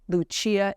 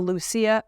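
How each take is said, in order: First: The name is pronounced in an Italian-style way. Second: The name is pronounced in a plain English way.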